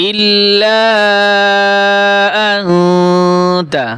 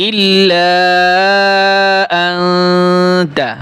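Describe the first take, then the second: The two takes are said the same way.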